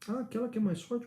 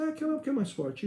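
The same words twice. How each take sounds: First: Rising, higher questioning tune on "mais forte". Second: Falling, final tune on "mais forte"; higher start, closing "mais forte" as settled fact; stated answer. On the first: Puzzled pupil echoing the definition back to the teacher, questioning. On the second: Teacher answering a pupil's doubt and ending it, stated firmly. Acts curt answer to that question. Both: Acted.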